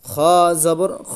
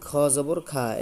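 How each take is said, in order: First: The final vowel is a heavy, darker 'o'-like sound. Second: The final vowel is a light, open 'a'. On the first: The speaker calls it right. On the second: The speaker calls it wrong.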